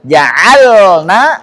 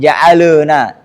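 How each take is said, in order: First: The l is held clearly without a vowel. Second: An extra vowel sound follows the l. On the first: The speaker calls it right. "memperjelas sukunnya" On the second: The speaker calls it wrong. "jangan sampai dia tawallud"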